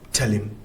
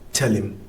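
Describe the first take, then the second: First: The h sound is dropped, linking into the l. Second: The same.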